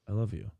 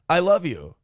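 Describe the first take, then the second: First: It is said in a breathy voice. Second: It is said in a plain, casual voice.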